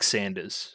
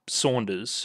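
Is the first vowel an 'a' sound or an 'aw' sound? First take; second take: a; aw. First: The first vowel is a flat 'a' sound. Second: The first vowel is an open 'aw' sound. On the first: The speaker calls it wrong. "making it sound like Sanders" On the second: The speaker calls it right. "actually pronounced Saunders"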